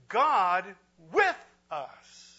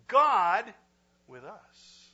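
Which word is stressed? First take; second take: with; God. First: The word with carries the stress. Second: The word God carries the stress.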